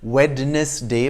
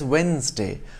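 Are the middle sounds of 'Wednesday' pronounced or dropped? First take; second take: pronounced; dropped. First: Every letter's sound is pronounced in full. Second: The middle D and E sounds are dropped. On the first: "not as Wednesday" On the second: "such as the D and E from Wednesday"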